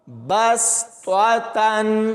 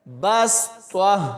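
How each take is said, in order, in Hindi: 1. शब्द पूरी 'tan' आवाज़ पर खत्म होता है। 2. शब्द आखिरी 'tan' के बिना कटा हुआ है। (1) "अगर यहाँ पर वक्फ नहीं करते तो ता के ऊपर दो ज़बरों को पढ़ते हुए" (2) "अगर वक्फ करना है तो फिर ऐसे पढ़ेंगे"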